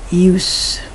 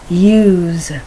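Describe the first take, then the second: First: The word ends with a hissing S sound. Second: The word ends with a buzzing Z sound. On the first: It is used as a noun. "U S E is a noun" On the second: It is used as a verb. "the S becomes more of a Z pronunciation"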